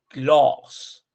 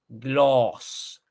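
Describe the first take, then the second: First: The vowel is long and rounded. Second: The same.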